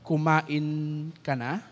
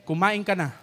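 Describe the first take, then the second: First: "Kumain ka na?" asked slowly with a rising end; slow asking "Kumain ka na?", lifting at the end; "Kumain ka na?" as a slow, rising question; questioning tune. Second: "Kumain ka na?" with a falling end and stress on "ka"; commanding tune. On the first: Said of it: "We also have interrogative". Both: Shown as a demonstration.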